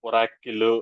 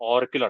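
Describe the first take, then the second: First: The word is said with three syllables. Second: The word is said with two syllables. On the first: The speaker calls it wrong. "కొంతమంది దీని pronunciation ఒరాకిల్ something అలా పిలుస్తుంటారు. So అలాగా లేదు" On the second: The speaker calls it right. "మామూలుగా దీని name ఎలా అంటే ఆర్కిల్ అంటారు"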